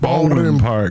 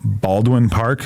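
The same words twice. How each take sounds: First: The syllables of the name are squashed together. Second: Each syllable of the name is said clearly.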